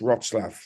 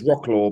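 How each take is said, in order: First: The name is said the Polish way. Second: The name is said the English way. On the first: The speaker calls it right. "but it's Wrocław" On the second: The speaker calls it wrong. "people think it's Wroclaw"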